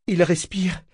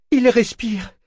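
First: High-pitched hopeful cry; anguished joy. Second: Very high, louder cry; anguished joy, mounting. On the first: Eta kneeling by Kénit, anguished joyful cry. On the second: Eta finds Kénit breathing, cries out in rising joy. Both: A narrator's reading. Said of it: "s'écria-t-elle, saisie d'une joie angoissée".

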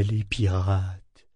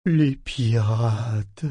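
First: Voix rêveuse. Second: Lent, rêveur, hanté par la peur; traîner les mots comme en rêve; voix rêveuse et terrifiée. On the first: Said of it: "le ton semblait rêveur". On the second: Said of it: "n'eût été la terreur que sa voix trahissait, le ton semblait rêveur". (ton rêveur teinté de terreur) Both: A narrator's reading.

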